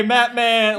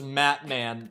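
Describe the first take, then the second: First: Matt Man called out loud and high; yelling. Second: Said in the usual way. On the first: Retold or imitated. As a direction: shout Matt Man to get his attention. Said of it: "over voice".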